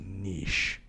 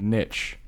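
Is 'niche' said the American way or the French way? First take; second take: French; American. First: The word is said with the French pronunciation. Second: The word is said with the American pronunciation. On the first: The speaker calls it right. "Because he was French Canadian. He's like, no, it is niche" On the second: The speaker calls it wrong. "he hated it when people said niche"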